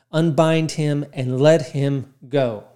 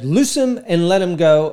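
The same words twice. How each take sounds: First: Said in the usual way. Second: Mock triumphant proclamation, louder; climactic preacher moment. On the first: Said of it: "climactic moment". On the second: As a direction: ham up the big finish like typical preachers. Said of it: "kinda like this climactic moment".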